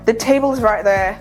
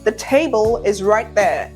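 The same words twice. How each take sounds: First: The words are rushed and slurred together. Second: Each word is clearly and fully articulated. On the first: The speaker calls it wrong. "That immediately takes your" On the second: The speaker calls it right. "to the table is right there. Big difference"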